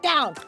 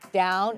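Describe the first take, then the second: First: The word is said harshly, like a yell. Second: The word is said calmly and quietly. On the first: The speaker calls it wrong. "harsh or yelling like down, commanding" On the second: The speaker calls it right. "It's calm"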